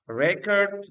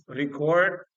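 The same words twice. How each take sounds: First: "record" stressed on the first syllable, RE-cord; noun pronunciation. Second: "record" stressed on the second syllable, re-CORD; light start on "record", full weight on CORD; verb pronunciation. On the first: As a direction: punch the RE in "record", higher and louder, with a weak ending. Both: Shown as a demonstration. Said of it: "difference between the noun form of it and verb form".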